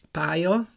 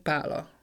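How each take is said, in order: First: "pálya" said pá-ja; y-glide for the ly in "pálya"; standard J sound. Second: "pála" with l in place of j; western L sound. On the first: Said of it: "köznyelvben azt mondjuk". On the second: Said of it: "ha elmegyünk a Nyugat-Dunántúlra". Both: Shown as a demonstration.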